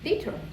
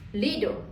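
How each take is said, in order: First: The middle consonant is a clear t sound. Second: The middle consonant is a soft d-like sound. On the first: "British English" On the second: "American English"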